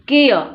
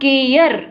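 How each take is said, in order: First: The word ends on a vowel without r. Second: The word ends with an audible r sound. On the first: The speaker calls it right. "केय, के और एय पहचानने की कोशिश करें" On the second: The speaker calls it wrong. "इसको आप केयर ऐसे नहीं पढ़ें, गलत हो जाएगा"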